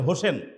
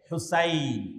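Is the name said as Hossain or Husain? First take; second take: Hossain; Husain. First: The name is said as Hossain, with o and e. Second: The name is said as Husain, with u and ai. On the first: The speaker calls it wrong. "অনেকের নামের শেষে হোসেন আছে" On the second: The speaker calls it right. "কিন্তু সঠিক উচ্চারণ হচ্ছে হুসাইন"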